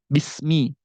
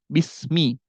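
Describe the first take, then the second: The two takes are said the same way.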